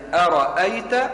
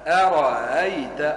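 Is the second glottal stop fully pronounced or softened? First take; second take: full; softened. First: Both glottal stops are clearly pronounced. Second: The second glottal stop is softened and eased. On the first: "همستين" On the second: "يسهلوها"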